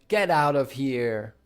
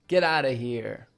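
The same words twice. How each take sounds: First: 'Out of' is said fully, 'of' clear. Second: 'Out of' is reduced to 'outa'. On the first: "Instead of saying" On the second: "out of becomes outa"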